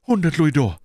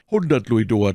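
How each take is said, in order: First: High, loud answer; anxious bandit voice, pitched up; frightened bandit. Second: Said in the usual way. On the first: Acted. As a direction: blurt out the sum as the captive. Captive bandit names his payment.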